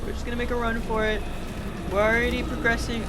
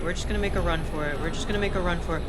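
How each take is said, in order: First: Higher, fast, loud and tense; squeaky panicked rush; being chased. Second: Fast and loud, urgent; rushing the words out mid-escape; being chased. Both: Real, not acted. Fleeing a monster in game.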